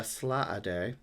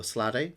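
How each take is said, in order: First: Slaaday with a long, stretched first vowel; drawn-out pronunciation. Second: Sladdy with a short, unstretched first vowel; shorter pronunciation. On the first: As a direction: say "Slaaday" slowly, drawing out SLAA before DAY. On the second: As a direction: say "Sladdy" quickly as two syllables, SLAD-day. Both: Shown as a demonstration. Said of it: "I'm gonna say Sladdy".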